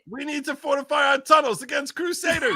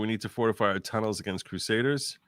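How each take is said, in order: First: It is delivered with passion and energy. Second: It is read flatly, with little feeling. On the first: The speaker calls it right. "that's better. Funnier!" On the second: The speaker calls it wrong. "you're not saying it with any passion right now"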